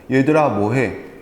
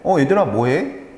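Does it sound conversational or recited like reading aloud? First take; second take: recited; conversational. First: It sounds stiff, like reading from a textbook. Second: It sounds natural and casual, like chatting.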